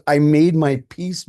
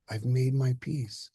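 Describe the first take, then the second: First: Slow, loud, sneering repeat; mocking angry echo. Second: Slow, settled, at peace; calm and serene. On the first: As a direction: throw his words back with contempt. Son mocks father's words. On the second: Acted. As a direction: say it slowly like it is resolved. Father calmly states his peace.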